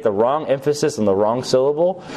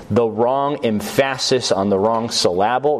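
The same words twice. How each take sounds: First: Said in the usual way. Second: "emphasis" as em-FASS-is, "syllable" as suh-LAB-ul; "emphasis" and "syllable" deliberately mis-stressed on their second syllables; wrong-syllable stress. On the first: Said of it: "You know, that kind of thing". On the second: Shown as a demonstration. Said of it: "You get the wrong emphasis on the wrong syllable".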